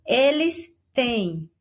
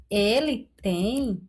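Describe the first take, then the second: First: Eles têm slow, têm weighted; stressed têm. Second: Ele tem slow, tem light; contrast: singular tem, slowly. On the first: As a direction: land on têm, slowly. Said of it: "o Word já deu até a sugestão". (Eles têm, devagar, com ênfase no têm) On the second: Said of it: "Agora, se fosse". (ele tem, devagar, no singular) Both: Shown as a demonstration.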